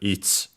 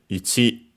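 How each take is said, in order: First: The final vowel is dropped or barely heard. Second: The final vowel is clearly pronounced.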